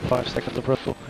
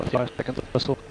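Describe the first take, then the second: No difference in how they are said.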